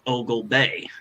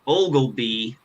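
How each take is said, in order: First: The name ends with a 'bay' sound. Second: The name ends with a 'bee' sound. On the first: The speaker calls it right. "it turns out it's called Ogle Bay" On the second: The speaker calls it wrong. "I had been mispronouncing it"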